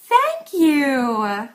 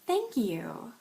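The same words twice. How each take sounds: First: It is said in an exaggerated, overdone way. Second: It is said in a plain, sincere way. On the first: The thanks is overplayed. "If you want to sound exaggerated" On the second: The thanks is genuinely meant. "If you just wanted to say thank you"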